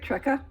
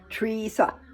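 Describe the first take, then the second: First: The first vowel is a short 'eh' sound. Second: The first vowel is a long 'ee' sound. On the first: The speaker calls it wrong. "other people pronounce it Trecca" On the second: The speaker calls it right. "T R, tree, like a tree"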